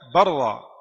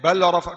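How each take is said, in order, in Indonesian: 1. Bunyi l menyatu ke dalam bunyi r yang digandakan. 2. Bunyi l diucapkan terpisah sebelum r. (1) "Tidak ada lam"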